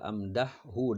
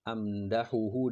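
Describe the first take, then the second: First: The first h has no vowel after it. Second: The first h is followed by a vowel. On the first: This is the form in the poem, after a jussive particle. "dengan disukunkan ha" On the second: This is the form written in the book. "ditulis di sini"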